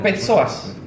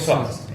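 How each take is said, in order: First: The initial p is pronounced before the s. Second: The initial p is silent; it starts with s. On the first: The speaker calls it wrong. "no digo psoas" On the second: The speaker calls it right. "Digo psoas"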